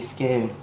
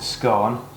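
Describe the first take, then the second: First: It is said with the southern pronunciation. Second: It is said with the northern pronunciation. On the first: This is how southerners say it. "southerners it's a scone" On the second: This is how northerners say it. "northerners it's a scone"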